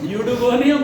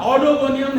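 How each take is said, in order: First: The word begins with a 'yoo' sound. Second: The word begins with an 'aw' sound. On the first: The speaker calls it right. "यूडोगोनियम बोलना" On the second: The speaker calls it wrong. "ऑडोगोनियम नहीं बोलना है"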